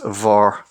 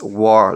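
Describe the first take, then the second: First: The word begins with a V sound. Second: The word begins with a W sound. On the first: This is the southern Irish dialect form. "in the southern dialect of Irish, it's also pronounced vor" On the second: This is the Ulster dialect form. "in Ulster, it's pronounced war, like a W"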